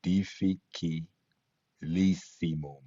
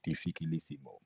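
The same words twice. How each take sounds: First: Difficilissimum said slowly, each syllable apart. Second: Said in the usual way. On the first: Shown as a demonstration. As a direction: break Difficilissimum into slow syllables. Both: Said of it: "when we break down syllables".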